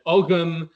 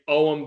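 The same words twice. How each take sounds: First: Ogham with the g sounded, "og-um"; medieval Irish pronunciation. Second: Ogham as "ome", gh left silent; modern Gaelic pronunciation. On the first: Speaker demonstrates older usage, Ogham with a voiced g. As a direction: say Ogham in two syllables, voicing the gh. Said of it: "In the eighth, ninth century ... you would have said". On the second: Speaker explains own habit, Ogham said the modern silent-g way. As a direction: say Ogham with no g sound. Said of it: "modern Irish and modern Scottish Gaelic pronunciation". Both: Shown as a demonstration.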